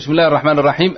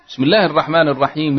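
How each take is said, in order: First: Each word ends with no final vowel. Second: Each word keeps its final vowel, linked onward. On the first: The speaker calls it wrong. "لا تفعل هذا العيب" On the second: The speaker calls it right. "حرك"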